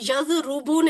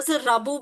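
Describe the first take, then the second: First: The second vowel is 'u'. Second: The second vowel is 'a'. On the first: "यजरुबू नहीं है" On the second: "यजराबू भी नहीं है"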